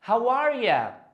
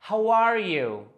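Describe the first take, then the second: First: The last word is reduced to a quick 'ya'. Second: The last word is a full, clear 'you'.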